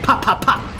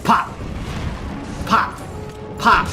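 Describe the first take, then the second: First: The pops come quickly with short gaps. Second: The pops come slowly with long gaps. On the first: The weapon is firing at its normal rate. The speaker calls it right. "where it's supposed to be" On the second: The weapon is firing too slowly. The speaker calls it wrong. "just started firing really slowly"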